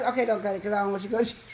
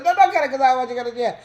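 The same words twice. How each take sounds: First: Fast, rushed take-back; rushed backpedal. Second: Fast, louder, urgent stop; urgent rushed plea. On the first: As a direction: blurt it out quickly. Sudden reversal, stop him. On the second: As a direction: hurry to stop him. Repeats reversal louder. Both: Retold or imitated.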